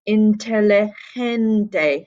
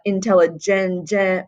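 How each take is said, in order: First: The G is said as a soft, breathy sound. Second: The G is said as a hard stop sound. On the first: The speaker calls it right. "it's he down here" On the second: The speaker calls it wrong. "with a hard G sound"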